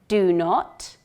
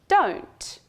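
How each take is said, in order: First: Both words are said fully as two syllables. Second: The words are shortened into one quick syllable.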